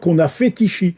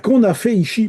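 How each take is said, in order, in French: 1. Un son T lie 'fait' et 'ici'. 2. Aucun son T ne lie 'fait' et 'ici'. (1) "on ne dit pas" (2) "quand il y a un risque devant une voyelle de faire la liaison"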